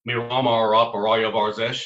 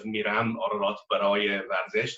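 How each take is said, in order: First: The R and A sounds have an Armenian accent. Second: The R and A sounds are standard Persian. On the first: "an Armenian accent, which is quite peculiar" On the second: "instead of"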